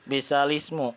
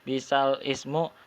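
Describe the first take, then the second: First: Ismu runs together with the word before. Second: Ismu is said as a separate word. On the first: The speaker calls it right. "tetapi menjadi bisalismu" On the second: The speaker calls it wrong. "bukan bisal ismu"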